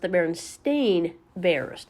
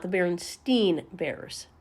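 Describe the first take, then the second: First: The name's last syllable sounds like 'stain'. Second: The name's last syllable sounds like 'stine'. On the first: The speaker calls it right. "it's pronounced the Berenstain Bears" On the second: The speaker calls it wrong. "not the Berenstein Bears"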